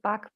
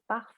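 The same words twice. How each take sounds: First: The name is said with an anglicized pronunciation. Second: The name is said with a German pronunciation. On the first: "some pronounce it Bach" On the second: "as a German, I just can't, I can't say it"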